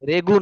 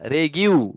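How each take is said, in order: First: The g goes straight into 'oo'. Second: The g goes into a 'yoo' sound. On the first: The speaker calls it wrong. "রেগু না" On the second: The speaker calls it right.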